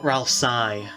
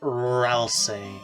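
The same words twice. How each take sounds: First: The last syllable rhymes with 'eye'. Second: The last syllable does not rhyme with 'eye'. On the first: The speaker calls it wrong. "not Ralsei, as some people say. E I doesn't equal I" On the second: The speaker calls it right. "which is the canon canonical pronunciation"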